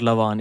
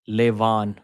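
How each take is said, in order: First: The first syllable sounds like 'la'. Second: The first syllable sounds like 'lay'. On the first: The speaker calls it wrong. "It's not Lavan" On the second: The speaker calls it right. "Levan is like L A Y, Le"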